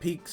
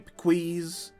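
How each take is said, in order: First: The word is said as one short syllable. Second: The word is stretched into two syllables. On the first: The speaker calls it right. "instead of Peaks" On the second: The speaker calls it wrong. "That I say wrong on purpose"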